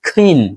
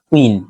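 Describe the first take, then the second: First: The first k sound is breathy and aspirated. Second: The first k sound is plain, without breath. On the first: The speaker calls it right. "খয়ের মতো করে sound হবে" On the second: The speaker calls it wrong. "Not কুইন"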